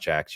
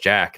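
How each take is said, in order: First: The name ends in a ks sound. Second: The name ends in a plain k sound. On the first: The speaker calls it wrong. "not Jax" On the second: The speaker calls it right. "it's Jack"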